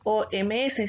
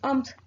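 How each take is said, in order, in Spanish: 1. Cada letra se nombra por separado, una por una. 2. Las letras se pronuncian juntas como una sola palabra. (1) "no decimos O M S" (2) "sino decimos O M S"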